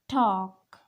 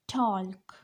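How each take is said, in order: First: The L sound is silent. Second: The L sound is pronounced. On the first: The speaker calls it right. "but this is silent. This is talk" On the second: The speaker calls it wrong. "This is not talk"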